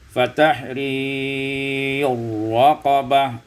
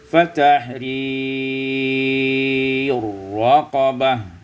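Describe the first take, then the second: First: The vowel is held a medium length. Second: The vowel is held long.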